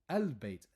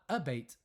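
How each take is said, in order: First: The l sound is pronounced before b. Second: The l sound is dropped before b. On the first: The speaker calls it right. "moon letters don't affect anything" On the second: The speaker calls it wrong. "not a bait"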